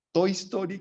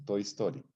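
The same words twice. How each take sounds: First: "Toy Story" mucho más agudo, exclamado con entusiasmo; entusiasmado. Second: Said in the usual way. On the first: Real, not acted. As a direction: anuncia "Toy Story" como un hallazgo alegre. Nombra la película con entusiasmo. ("Toy Story" dicho alto y emocionado)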